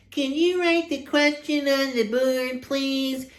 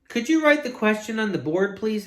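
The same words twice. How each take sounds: First: High, distorted mimicking voice; mocking. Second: High-voiced polite question; pupil's request. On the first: Teacher throwing a pupil's request back, mocking. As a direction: parrot the request in a silly high voice. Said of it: "In a mocking voice". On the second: Pupil asking teacher to write it down, polite request. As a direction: ask politely in a raised pitch. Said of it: "asked Rondi". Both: A narrator's reading.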